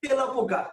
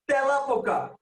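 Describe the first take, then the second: First: তেলাপোকা with the closed first vowel, the wrong way; wrong pronunciation. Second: তেলাপোকা said slowly with the open first vowel; correct pronunciation. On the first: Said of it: "not তেলাপোকা". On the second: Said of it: "The word is তেলাপোকা". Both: Shown as a demonstration.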